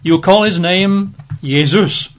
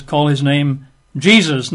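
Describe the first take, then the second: First: Jesus said yay-ZOOS; Jesus swapped into Greek, starting with Y; Greek form of the name. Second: Jesus said JEE-zuz; Jesus read the usual English way, starting with J; English form of the name. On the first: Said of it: "in the Greek". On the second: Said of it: "records this as Jesus". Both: Shown as a demonstration.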